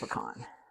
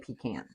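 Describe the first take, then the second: First: It is said the non-Southern way. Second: It is said the Southern way.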